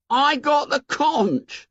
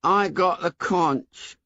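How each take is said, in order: First: High, slow wounded schoolboy voice; hurt Piggy. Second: Put-on lightly raised, slow, defeated boy; bleak Piggy. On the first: Acted. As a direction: say it like a boy stung by being ignored. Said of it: "said Piggy in a hurt voice". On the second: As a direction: say it with little hope left. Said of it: "said Piggy bleakly".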